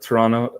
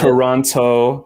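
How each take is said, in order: First: The start is strong and the end softens. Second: Every syllable is said equally strong. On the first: The speaker calls it right. "the first part's like kind of hard, but then it kind of like so- softens up at the end" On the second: The speaker calls it wrong. "We're not saying that"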